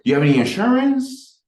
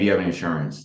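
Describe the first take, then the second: First: The pitch lifts upward at the end. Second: The pitch stays flat with no upward lift. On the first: The speaker calls it right. "there's an uptick" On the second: The speaker calls it wrong. "it's not like a"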